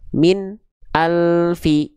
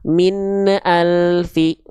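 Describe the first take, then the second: First: The n sound is held and cut off. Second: The n sound bounces. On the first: "yang ke satu dia tertahan, bunyinya terputus" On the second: "Yang kedua dia memantul"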